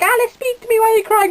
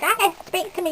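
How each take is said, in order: First: Much higher, louder mock brother voice; squeaky panicked brother, hammed up; imitating brother, alarmed. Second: Imitating brother. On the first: Brother pleads with crying Alice to talk: high, loud mock panic. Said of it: "at the end he's like". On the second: Brother nags Alice, who is reading, to talk: higher nagging mimic. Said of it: "He's like".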